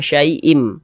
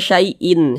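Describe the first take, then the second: First: The word ends with an m sound. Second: The word ends with an n sound. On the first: The speaker calls it right. "tapi menjadi menjadi mim" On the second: The speaker calls it wrong. "Jangan dibaca syai'in"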